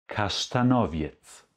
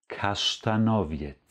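No difference in how they are said.

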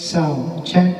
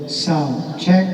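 First: The middle frequencies are boosted. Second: The high frequencies are boosted. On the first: "maglagay tayo ng mid" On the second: "yung pang 11 to 15, yun ang Twitter natin"

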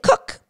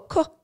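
First: The word is said loudly and excitedly. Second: The word is said quietly and calmly. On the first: The speaker calls it wrong. "cook means cookie and cookie is exciting" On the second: The speaker calls it right. "Really quiet cook"

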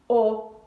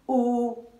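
First: The vowel is short and brief. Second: The vowel is held long.

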